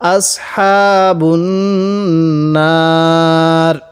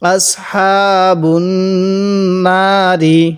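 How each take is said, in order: First: The last word ends on a bare consonant. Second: The last word ends with a short vowel. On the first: The reader stops at this point. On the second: The reading continues without a stop.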